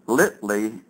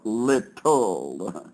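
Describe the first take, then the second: First: The word ends with an 'ee' sound. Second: The word ends with an 'ul' sound.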